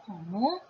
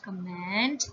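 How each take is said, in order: First: "comment" as "ko-mo", N and T silent; French pronunciation. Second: "comment" said the English way, N and T sounded; wrong English reading. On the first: Teacher correcting the first word, "comment" the French way. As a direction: end "comment" on an open O sound. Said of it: "it is comment". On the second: Teacher showing the wrong first word, "comment" read as English. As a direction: say "comment" as in English, ending -ment. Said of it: "it is not comment". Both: Shown as a demonstration.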